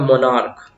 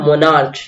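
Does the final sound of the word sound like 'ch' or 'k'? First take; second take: k; ch. First: The word ends with a 'k' sound. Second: The word ends with a 'ch' sound. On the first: The speaker calls it right. "इसका जो pronunciation है आपका, ये होता है मोनार्क।" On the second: The speaker calls it wrong. "लेकिन मोनार्च pronunciation wrong है।"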